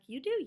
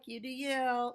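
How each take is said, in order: First: It is said in a warm, nice tone. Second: It is said in a condescending tone.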